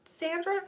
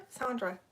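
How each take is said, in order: First: "Sandra" with a flat a as in sand, asking. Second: "Sandra" with a broad ah as in father, falling. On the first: Streamer asking a viewer how "Sandra" is said, flat a. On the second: Streamer offering a viewer the other "Sandra", broad ah. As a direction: say "Sandra" like Sahn-dra. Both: Shown as a demonstration. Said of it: "are you Sandra or Sandra".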